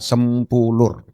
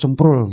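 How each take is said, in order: First: The name is said slowly, every syllable clear. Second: The name is said fast, syllables squeezed together. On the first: The speaker calls it right. "mesti pelan-pelan" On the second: The speaker calls it wrong. "Kalau cepat"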